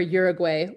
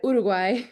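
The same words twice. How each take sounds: First: The name is said with English-style vowels. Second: The name is said with Spanish vowels. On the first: The speaker calls it wrong. "or Uruguay. Oof, nails on a chalkboard" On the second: The speaker calls it right. "when I pronounce Uruguay"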